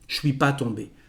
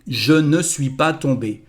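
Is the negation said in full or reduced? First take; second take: reduced; full. First: The word ne is left out. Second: Every word including ne is pronounced. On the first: This is how it sounds in everyday speech. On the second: This is the standard written form.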